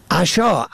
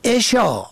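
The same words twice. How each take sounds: First: عشا said "asha", opening on a; short a first. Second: عشا said "esha", opening on e; short e first. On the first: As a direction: say عشا as "a-SHAA". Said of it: "به فتح اول". (عشا با فتح اول، «عَشا») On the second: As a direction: say عشا as "e-SHAA". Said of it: "به کسر اول". (عشا با کسر اول، «عِشا») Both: Shown as a demonstration.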